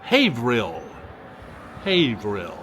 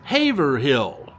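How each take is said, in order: First: "Haverhill" said as HAY-vill, the middle dropped; local pronunciation. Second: Haverhill said fully as HAY-ver-hill, slow; wrong pronunciation. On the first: Host giving a viewer's local correction, "Haverhill" as hay-vill. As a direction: squeeze "Haverhill" into two syllables, hay-vill. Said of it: "it's pronounced, she says". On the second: Host redoing his mispronunciation, "Haverhill" as hay-ver-hill. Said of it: "got a chuckle listening to me say". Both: Shown as a demonstration.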